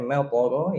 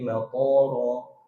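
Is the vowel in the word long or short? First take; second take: short; long. First: The vowel is kept short. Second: The vowel is drawn out long. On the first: It means a rain of stones. The speaker calls it right. "Harusnya maqara" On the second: It means an airport. The speaker calls it wrong. "Pokoknya jadi panjang"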